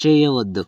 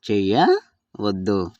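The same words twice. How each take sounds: First: Said in the usual way. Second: Slow చేయవద్దు, broken after a rising చేయ; part by part. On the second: Shown as a demonstration. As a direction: split చేయవద్దు in two for learners. Teacher repeats word in parts. (నెమ్మదిగా, విడదీసి)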